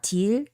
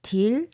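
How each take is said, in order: Both takes have the same delivery.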